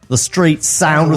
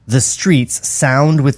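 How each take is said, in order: First: It is read in an Australian accent. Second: It is read in the speaker's ordinary accent.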